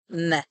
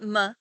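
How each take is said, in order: First: The vowel is a short 'eh' sound. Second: The vowel is a short 'uh' sound. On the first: The speaker calls it right. "An Israeli schwa sounds more like a short eh sound" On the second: The speaker calls it wrong. "not ma"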